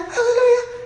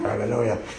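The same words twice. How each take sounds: First: It is said in a very high voice. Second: It is said in a very low voice.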